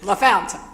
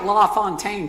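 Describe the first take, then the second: First: The middle syllable sounds like 'fount'. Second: The middle syllable sounds like 'font'. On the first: This is how local people say the name. The speaker calls it right. "I figured you had to be from here to pronounce it that way" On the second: This is how the spelling reads to an outsider. The speaker calls it wrong. "It looks like La Fontaine to me"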